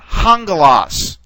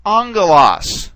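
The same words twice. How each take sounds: First: Hangelos begun with an h sound; rough breathing. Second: Angelos begun on the vowel, no h; smooth breathing. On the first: Teacher showing what a rough breathing mark would do, hangelos with h. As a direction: say "hangelos" with an audible h before the vowel. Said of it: "if you had a rough breathing mark". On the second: Teacher showing students a smooth breathing mark, angelos without h. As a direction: say "angelos" with no h sound at the start. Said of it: "we have a smooth breathing mark". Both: Shown as a demonstration.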